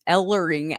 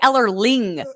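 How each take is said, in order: First: The name is said without an extra L sound. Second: The name is said with an extra L sound. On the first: The speaker calls it right. "of course. I can never say his name" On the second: The speaker calls it wrong. "I want to say Ellerling. That is more natural to me"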